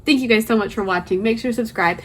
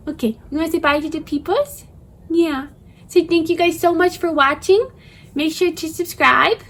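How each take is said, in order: First: Said in the usual way. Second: Put-on high cooing baby talk; puppy voice. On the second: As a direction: speak for the dog in baby talk. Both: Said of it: "Sorry for my puppy voice".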